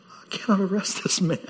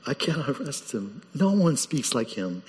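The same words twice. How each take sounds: First: Hushed, whispered confession; awed whisper. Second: Hushed awe. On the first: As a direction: whisper it like you're stunned. Officers awed after hearing Jesus. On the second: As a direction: say it softly, still in awe. Officers awed, repeating softly. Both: Acted.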